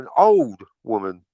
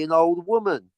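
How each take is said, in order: First: Put-on OLD punched, with "woman" dropping lower; stress on OLD. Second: WOMAN gets the emphasis, falling at the end; stress on WOMAN. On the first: Shown as a demonstration. Correcting the misplaced emphasis on Aunt May's description, stress on OLD. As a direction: hit the word "old" hard, then fall away. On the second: Real, not acted. Describing who Aunt May is meant to be, stress on WOMAN. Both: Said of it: "Put the emphasis on the wrong part".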